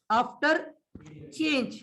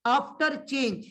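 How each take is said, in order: First: "after", a long pause, then "change"; "after" left rising, "change" falling after a gap; dictation pause. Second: Said in the usual way. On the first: Shown as a demonstration. Same heading dictated in pieces.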